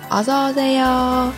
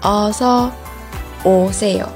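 First: The phrase is said at a faster pace. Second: The phrase is said at a slower pace.

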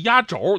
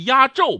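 First: The second syllable has a rising tone. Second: The second syllable has a falling tone. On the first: The speaker calls it wrong. "不是压轴，你刚才说成2 声了啊" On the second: The speaker calls it right. "是压轴"

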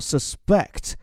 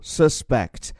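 First: The stress is on the second syllable. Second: The stress is on the first syllable. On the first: It is a verb meaning to doubt or suspect something. "重音就在后面了" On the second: It is a noun meaning a person suspected of a crime. "注意这个词的重音在第一个音节上，然后往后渐弱"

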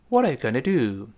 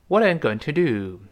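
First: "Going to" is said fast and blended together. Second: "Going to" is said slowly and in full.

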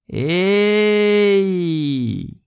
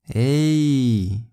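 First: It is said with the most enthusiasm and energy. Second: It is said in a happy, lively way. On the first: A close friend has not been seen for a long time. "如果对方是非常好的朋友，也你很久没有见过他" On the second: The speaker is glad to see a friend. "就是你很开心"

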